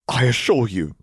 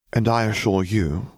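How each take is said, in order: First: Firm, raised insistence on assure; insistent assurance. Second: Level, unmoved counter; flat reply. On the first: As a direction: press the word assure up and firm. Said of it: "she began". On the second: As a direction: hand it back coolly, no heat. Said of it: "replied flatly". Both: A narrator's reading.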